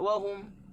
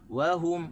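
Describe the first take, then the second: First: The stress is on the first syllable. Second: The stress is on the second syllable. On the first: The speaker calls it wrong. "kita tak boleh baca wahum" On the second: The speaker calls it right. "Waw kita tak tekan, tekan di ha"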